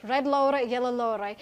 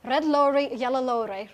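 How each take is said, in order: Both takes have the same delivery.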